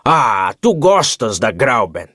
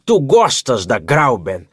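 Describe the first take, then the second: First: Slow, absent-minded "Ah, tu gostas da Grauben?" as if thinking elsewhere; mechanical repeat. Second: Slow, knowing "tu gostas da Grauben?" like a guardian questioning a ward; tutor's tone. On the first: Distracted uncle echoing his own question to his nephew, mechanically. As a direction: repeat it by rote, stress "tu", falling flat. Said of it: "repetiu ele maquinalmente". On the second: Uncle questioning his nephew about Grauben, in a tutor's tone. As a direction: stress "tu" with a falling, probing tutor's tone. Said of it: "numa verdadeira entoação de tutor".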